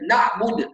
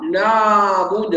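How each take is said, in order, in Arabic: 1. صوت العين يُقطع فجأة. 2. صوت العين ممدود أكثر من اللازم. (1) "ولا نكتم الصوت، يعني نلغي الزمن ده ونخليها شده" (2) "لا نزيد الصوت، يعني لا نزيد الزمن ... هذا خطا"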